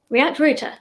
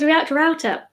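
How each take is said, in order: First: Router is said with a British pronunciation. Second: Router is said with an American pronunciation.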